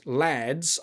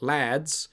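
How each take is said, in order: First: Said in the usual way. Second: "Lads" in a deliberately bad British accent; horrible British accent. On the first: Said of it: "I always read it". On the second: Shown as a demonstration. Joking about how she reads the game's name, bad British accent. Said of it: "a horrible British accent".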